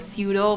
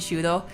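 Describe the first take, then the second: First: The name begins with an s sound. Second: The name begins with a sh sound. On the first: The speaker calls it wrong. "I always want to go pseudo" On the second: The speaker calls it right. "but it's actually Shudo"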